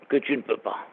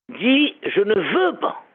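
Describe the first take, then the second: First: "que tu ne peux pas" muttered low and soft; low soft wrong phrase; dropped low and soft. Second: "veux" stressed, slow and rising. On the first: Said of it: "ne dis pas". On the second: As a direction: slowly lift "veux" as the right word. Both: Shown as a demonstration.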